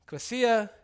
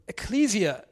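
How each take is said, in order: First: Ecclesia said as KLEH-see-uh, higher; ecclesia with a short e and s, KLEH-see-uh; corrected pronunciation. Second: Ecclesia said slowly as ih-KLEE-zee-uh; ecclesia drawn out, unsure, ih-KLEE-zee-uh; mispronounced word. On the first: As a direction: repeat the corrected ecclesia carefully. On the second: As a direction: stumble through ecclesia with a long ee and z. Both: Shown as a demonstration.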